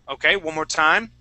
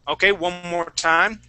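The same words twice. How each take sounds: Both takes have the same delivery.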